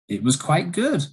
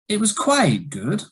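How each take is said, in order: First: The pitch rises toward the end. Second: The pitch rises, falls, then rises again. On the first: The speaker is surprised. "it was a rising intonation and it shows surprise" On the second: There is some disagreement or a negative is coming. "it was a rise, fall, rise"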